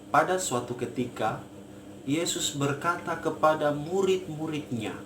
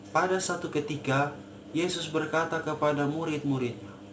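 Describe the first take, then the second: First: Every word is sounded fully to the end. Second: Some sounds are swallowed and lost. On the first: The speaker calls it right. "Idealnya kan begini" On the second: The speaker calls it wrong. "Jadi dia punya nya itu sudah hilang"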